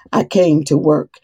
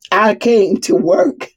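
First: Said in the usual way. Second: "came" lifted and slowed, rising; stress on came. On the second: Shown as a demonstration. Preacher insisting to her staff, slow rise on "came". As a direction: stretch out "came" slowly with a rise. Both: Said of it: "I didn't come to sit on a throne".

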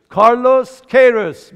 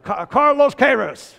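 First: کارلوس کیروس said slowly with an American accent, loud; American pronunciation. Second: Laughing, mimicking کارلوس کیروس the American way; imitating American accent. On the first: Real, not acted. Congregant answering the preacher, American accent. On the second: Preacher mimicking the congregant's American accent, laughing. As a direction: echo کارلوس کیروس with a playful American lilt. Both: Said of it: "خیلی آمریکایی تلفظش کرد".

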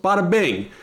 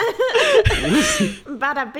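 First: Quick Brooklyn bada bing, falling; punchy wiseguy catchphrase; brooklyn accent. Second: Laughing slow Brooklyn bada bing; drawn-out wiseguy bada bing through laughter; brooklyn accent. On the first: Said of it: "talk in a Brooklyn accent".

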